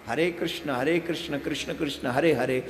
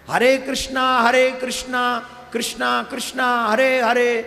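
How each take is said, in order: First: Each Krishna ends without an added a vowel. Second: Each Krishna ends with an added long a vowel. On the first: This is the true mantra. The speaker calls it right. "ये मंत्र है।" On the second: The mantra has been made impure. The speaker calls it wrong. "कृष्ण को बोलते हैं कृष्णा। ए लगाना जरूरी नहीं है।"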